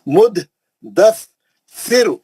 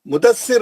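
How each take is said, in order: First: The word is split into three separate parts. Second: The syllables are run together quickly. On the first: This is the Quranic recitation. The speaker calls it right. "तीन टुकड़ों में पढ़ना" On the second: This is the everyday Urdu name. The speaker calls it wrong. "Mudassir हम मिला के उर्दू में बोलते हैं"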